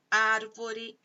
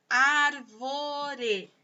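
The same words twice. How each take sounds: First: Said in the usual way. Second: "árvore" slowly stretched into ár, vo, re; syllable by syllable. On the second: Shown as a demonstration. Teacher showing three sounds to pupils, "árvore" syllable by syllable. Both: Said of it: "tem três".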